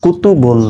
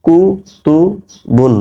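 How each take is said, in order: First: Said in the usual way. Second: কুতুবুন stretched very slowly, a bit higher; slow modeling of কুতুবুন; slow drawn-out reading. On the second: Shown as a demonstration. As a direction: draw কুতুবুন out syllable by syllable for students. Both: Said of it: "বা দুই পেশ বুন".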